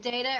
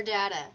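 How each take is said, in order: First: Data with the vowel of day; long-a data. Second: Data with the vowel of cat; short-a data. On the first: Host asking colleagues' preference, data as DAY-tuh. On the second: Host offering colleagues second option, data as DAT-uh. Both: Shown as a demonstration. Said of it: "how do you guys say it".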